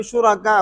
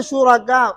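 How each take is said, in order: First: शुरका ending in a wu glide, no hamza; waw ending. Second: शुरका ending in ऊ with a hamza before it. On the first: Teacher contrasting the two endings, waw u. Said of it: "इसमें फ़र्क है". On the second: Teacher contrasting the two endings, hamza u. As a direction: end शुरका on a glottal-onset u. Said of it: "इसमें हमजा पढ़ेंगे". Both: Shown as a demonstration.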